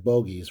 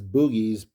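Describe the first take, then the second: First: The first vowel is a long oh sound. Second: The first vowel is a long oo sound. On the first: "I'll stick with pronouncing it as bogies" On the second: "I guess you could pronounce that as boogies"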